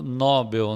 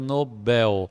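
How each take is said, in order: First: The stress is on the first syllable. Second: The stress is on the last syllable. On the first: The speaker calls it wrong. "As pessoas hoje em dia andam falando Nobel" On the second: The speaker calls it right. "a pronúncia correta é Nobel. Então ela é uma oxítona"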